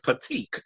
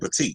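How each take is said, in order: First: The word ends with a K sound. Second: The word ends with a T sound. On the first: "He says petite, P A T E E K" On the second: "He don't say petite"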